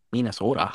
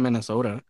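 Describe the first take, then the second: First: Lightly put-on Minnesotan accent; a hint of Minnesotan accent on the word. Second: Said in the usual way. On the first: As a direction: say Minnesota like a local. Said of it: "'Cause that's how they say it". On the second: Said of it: "Why'd you say Minnesota?".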